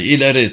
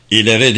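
First: Mildly raised, angry rallying call; angry battle cry. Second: Mildly raised mocking call; mocking shout. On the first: Hagag urges the attackers to climb on, angry shout. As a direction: voice a restrained war cry. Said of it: "öfkeli bağırışı çevrede yankılandı". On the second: Kasım mocks the attackers' war cry, jeering call. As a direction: throw the rallying cry back in mockery. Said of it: "diye alay ederek bağırdı Kasım". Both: A narrator's reading.

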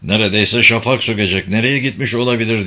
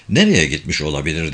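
First: Mild worry, hurried question; endişeli. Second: Low-pitched, gruff-character question; deep voice. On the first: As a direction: ask with a touch of anxiety. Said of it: "Sadık endişeyle". (hafif endişeli, telaşlı bir soru) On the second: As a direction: ask it down in a deep voice. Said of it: "diye sordu Zekeriya kalın sesiyle". (kalın, pes bir sesle) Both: A narrator's reading.

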